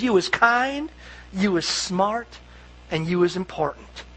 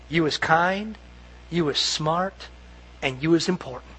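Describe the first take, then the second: First: Soft, gently fading reassurance; tender. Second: Soft, low, gentle reassurance; tender whisper-like. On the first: Nanny holding the child's face, soft and tender. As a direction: speak it softly into a child's face. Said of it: "she holds them by the face and she says". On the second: Nanny softly telling the little girl she matters. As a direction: murmur it like a nanny to a child. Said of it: "remember what she whispers to them". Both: Retold or imitated.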